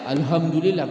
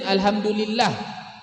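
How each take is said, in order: First: The h is a plain, light h sound. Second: The h is a throaty, breathy h sound. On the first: The speaker calls it wrong. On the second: The speaker calls it right.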